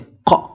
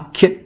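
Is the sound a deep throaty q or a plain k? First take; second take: deep q; plain k. First: It is a deep sound from the throat. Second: It is a plain front k sound. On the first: The speaker calls it right. "mais c'est q" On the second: The speaker calls it wrong. "C'est pas que"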